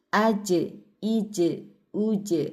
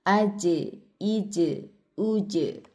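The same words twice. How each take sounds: No difference in how they are said.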